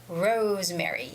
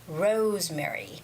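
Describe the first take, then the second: Both takes have the same delivery.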